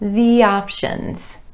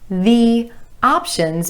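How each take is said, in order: First: A y sound glides between the words. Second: The two words are said separately.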